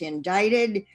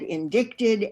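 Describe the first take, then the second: First: The C sound is left out. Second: The C sound is clearly pronounced. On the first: The speaker calls it right. "which the C is silent" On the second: The speaker calls it wrong. "And she said indicted"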